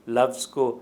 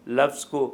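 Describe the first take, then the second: Both takes have the same delivery.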